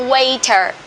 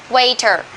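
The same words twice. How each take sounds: The two takes are said the same way.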